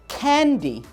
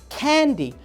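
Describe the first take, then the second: No difference in how they are said.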